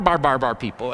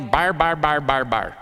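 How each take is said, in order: First: Said in the usual way. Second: Mock foreign babble, bar bar bar; imitating babbling. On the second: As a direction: babble the syllables like unintelligible speech. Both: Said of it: "what we would say babbling".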